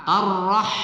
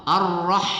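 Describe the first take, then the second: No difference in how they are said.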